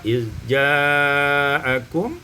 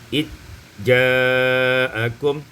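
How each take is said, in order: First: The z sound is kept before j. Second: The z sound merges into the j.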